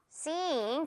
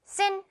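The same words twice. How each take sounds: First: "Scene" with a long, drawn-out ee; slow, soft "Scene", the ee held and falling; long vowel. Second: "Scene" said short with the voice rising; "Scene" as a quick, unstretched syllable; wrong short vowel. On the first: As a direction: stretch the vowel of "Scene" like elastic, softly. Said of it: "길게". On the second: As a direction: say "Scene" too short, as the mistake. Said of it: "Scene 길게". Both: Shown as a demonstration.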